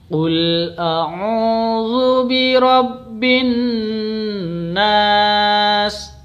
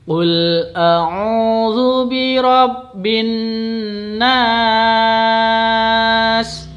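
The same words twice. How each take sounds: First: The final vowel is held for three beats. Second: The final vowel is held for five beats.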